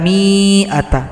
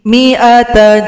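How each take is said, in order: First: The first vowel is held long. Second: The first vowel is kept short. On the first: The speaker calls it wrong. "Tidak boleh dibaca" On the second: The speaker calls it right. "maka mi dibaca pendek"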